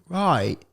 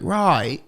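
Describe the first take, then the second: First: "Right." said as rite, crisp British; a clean British "Right.". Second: "Right." said as rite with a slightly different timbre; clipped British "Right.". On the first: Contrasting British and Australian, a British "Right.". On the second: Showing how UK people say it, a British "Right.". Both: Shown as a demonstration. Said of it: "U K people say it differently".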